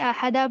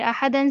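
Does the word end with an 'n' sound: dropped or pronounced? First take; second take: dropped; pronounced. First: The word ends with a long 'a' sound. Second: The word ends with a final 'an' sound. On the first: The reader stops on this word. "जब अहदन पे हम वक़्फ़ करेंगे" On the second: The reading continues without a stop. "अहदन में दो ज़बर हैं"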